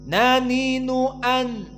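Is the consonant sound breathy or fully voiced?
voiced. The consonant is fully voiced without escaping air. The speaker calls it right. "tapi naninu an"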